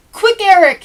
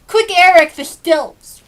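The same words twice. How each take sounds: First: Loud high call to a friend; shout. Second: Loud high eager call; shout. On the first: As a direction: shout it out, eager to play. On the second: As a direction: yell for the stilts, impatient to play. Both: Acted. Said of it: "he'd shout".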